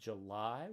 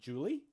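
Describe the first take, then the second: First: It sounds like the month name 'July'. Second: It sounds like the girl's name 'Julie'. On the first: This is the modern pronunciation. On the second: This is how it was said until about a century ago.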